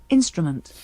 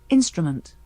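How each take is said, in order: No difference in how they are said.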